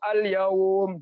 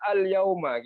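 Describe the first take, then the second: First: The word ends on a consonant, no final vowel. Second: The word ends with an added final vowel. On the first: The reading stops at this word. The speaker calls it right. "cara bacanya" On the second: The reading continues into the next word. The speaker calls it wrong. "jangan dibaca al yauma gitu kecuali disambung"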